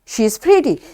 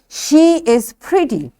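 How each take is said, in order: First: The verb is reduced and joined to she. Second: The verb is said as a full separate word. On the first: "This is weak form" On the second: "When it's a strong form"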